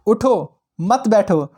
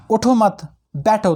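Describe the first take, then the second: First: "उठो", pause, then "मत बैठो" together; pause after उठो. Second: "उठो मत" together, pause, then "बैठो"; pause after मत. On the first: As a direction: break after "उठो" so it orders getting up. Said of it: "उठो, बैठना नहीं है". ("उठो" के बाद रुककर "मत बैठो") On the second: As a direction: break after "मत" so it means stay seated. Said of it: "कहता है कि भाई उठो मत". ("मत" के बाद रुककर "बैठो") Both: Shown as a demonstration.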